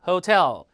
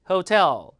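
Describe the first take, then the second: Both takes have the same delivery.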